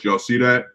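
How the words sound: It is said in a deep voice.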